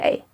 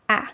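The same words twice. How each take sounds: First: It is said as the long letter name. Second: It is said as the short letter sound. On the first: This is the name of the letter. "This name of this letter is A. But when we read, we don't say A" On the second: This is the sound used when reading. "We say A"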